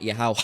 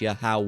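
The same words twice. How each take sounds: First: The H is pronounced harshly. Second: The H is pronounced softly. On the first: The speaker calls it wrong. "It's not Yahweh, like like a harsh H" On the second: The speaker calls it right. "It's a soft H"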